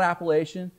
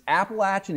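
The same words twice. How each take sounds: First: The middle does not sound like 'apple at'. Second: The middle sounds like 'apple at', with a short vowel. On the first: The speaker calls it wrong. "it is not Appalachian" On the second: The speaker calls it right. "it's Appalachian"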